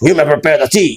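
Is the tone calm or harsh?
harsh. It is said in a harsh, rude tone. The listener is not being respected. The speaker calls it wrong. "तो ये आपको इज्जत मिल ही नहीं रही है"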